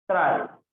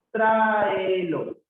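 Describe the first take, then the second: First: Said in the usual way. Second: "Tráelo" drawn out from a high "Trá", falling; stretched syllables. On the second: Shown as a demonstration. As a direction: stretch every vowel of "Tráelo". Teacher sounds out word for accent. (alargando las vocales, empezando agudo)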